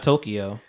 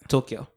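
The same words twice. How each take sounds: First: The word is said with three syllables. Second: The word is said with two syllables. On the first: The speaker calls it wrong. "it's not Tokyo" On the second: The speaker calls it right. "It's like two syllables"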